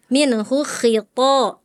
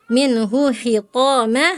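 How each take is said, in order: First: MINHU KHITO with a raspy kh; correctly scraped kho. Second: MINHU KHITAMA with kh as a smooth h; kho softened to H. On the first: Shown as a demonstration. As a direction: press friction into the KHI of KHITO. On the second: Retold or imitated. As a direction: imitate the student's unscraped KHI. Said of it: "Tadi Farel bacanya".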